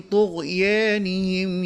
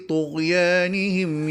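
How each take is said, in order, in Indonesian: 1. Vokal panjang condong ke bunyi 'e'. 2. Vokal panjang itu 'a' terbuka yang biasa. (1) "dengan imalah" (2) "dengan bacaan Fath"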